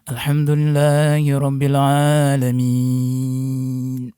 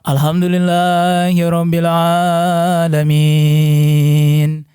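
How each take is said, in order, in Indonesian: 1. Suaranya dalam, ditekan dari perut bagian bawah. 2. Suaranya ringan, dialirkan keluar tanpa ditekan. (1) "yang dalam itu kalau kita menekan" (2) "Kalau luar mah"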